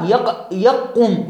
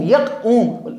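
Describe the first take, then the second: First: يقوم broken up slowly, يق- first and then the whole word; slow syllable demo. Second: Said in the usual way. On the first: Shown as a demonstration. Teacher slowly sounds out يقوم for students. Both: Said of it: "لاحظوا بهذه اللفظة الفظها".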